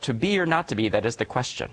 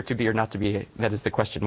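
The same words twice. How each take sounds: First: Retold crying out. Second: Said in the usual way. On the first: Fourth grader answering the poet's question, mildly crying out. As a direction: imitate a pupil's eager call, starting high. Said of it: "one girl cried out". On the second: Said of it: "once you hear".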